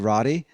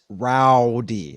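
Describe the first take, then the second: First: The vowel sounds like the one in "Roddy." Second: The vowel sounds like the one in "how." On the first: "the way I my accent works, it sounds like I'm saying Roddy Roddy" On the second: "but it's rowdy. I have to almost re-enunciate myself"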